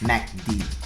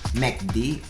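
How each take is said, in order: First: The first vowel is a soft 'a' sound. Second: The first vowel is an 'e' sound. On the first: "it's a soft A sound" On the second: "instead of a E sound"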